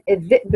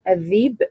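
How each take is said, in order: First: The word has a glottal stop in the middle. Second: The glottal stop becomes a long vowel.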